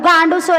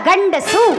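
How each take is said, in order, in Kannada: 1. ಮೊದಲ ಸ್ವರ ದೀರ್ಘವಾಗಿ ಎಳೆಯಲ್ಪಟ್ಟಿದೆ. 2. ಮೊದಲ ಸ್ವರ ಹ್ರಸ್ವವಾಗಿಯೇ ಉಳಿದಿದೆ. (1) "ಅದು ಗಾಂಡುಸು ಅಲ್ಲ"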